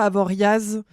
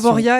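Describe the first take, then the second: First: The word ends with a z sound. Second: The word ends without a z sound. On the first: The speaker calls it wrong. "et pas Avoriaz" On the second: The speaker calls it right. "on dit Avoria"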